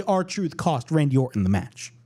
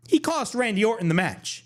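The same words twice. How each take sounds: First: R-Truth slowly and deliberately, "R-Truth" stressed; slow emphasis. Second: "He" punched high at the start; stress on he. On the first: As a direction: spell out that "R-Truth" cost him the match, slowly. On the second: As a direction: lift "He" and let it fall. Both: Shown as a demonstration.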